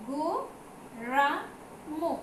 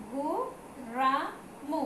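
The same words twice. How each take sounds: The two takes are said the same way.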